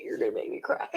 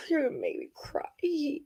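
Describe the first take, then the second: First: Whispered. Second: Choked up. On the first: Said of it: "It's like, legit". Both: Real, not acted.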